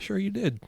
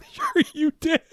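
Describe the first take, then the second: First: Said in the usual way. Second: Squeaky, very high mocking voice; comic high-pitched disbelief; mock agreement. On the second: Mocking repeat of the doubting reply.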